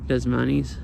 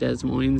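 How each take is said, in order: First: Moines sounds almost like money. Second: Moines does not sound like money. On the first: "Like they almost say Moines, like money or something" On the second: "instead of Des Moines"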